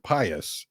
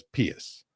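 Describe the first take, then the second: First: Pious as PIE-us; modern pronunciation. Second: Pious as PEE-us; Latin pronunciation. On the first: Explaining word history, pious said PIE-us. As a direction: say pious with a long i. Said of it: "we used to say the". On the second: Explaining the old Latin way, pious said PEE-us. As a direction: say pious with a long e. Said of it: "because it's a Latin word". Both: Shown as a demonstration.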